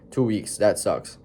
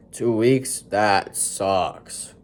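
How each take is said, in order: First: Certain. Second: Dripping sarcasm on sucks; mock sympathy, sarcastic. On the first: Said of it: "trying to be as certain". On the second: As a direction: say it as sarcastic as you can. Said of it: "trying to be as sarcastic as possible". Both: Shown as a demonstration.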